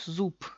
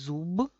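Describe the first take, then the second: First: The final consonant is a voiceless p. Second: The final consonant is a voiced b. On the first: "decimos zup" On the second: "en vez de decir zub, zub, que es mucho esfuerzo"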